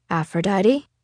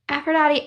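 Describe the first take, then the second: First: Said in the usual way. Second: Put-on higher, wounded young girl. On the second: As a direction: call her name, hurt and protesting. Stevie Ray answers, hurt.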